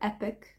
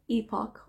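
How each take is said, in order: First: It is said with an American pronunciation. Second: It is said with a British pronunciation. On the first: "the American version" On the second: "the U K version"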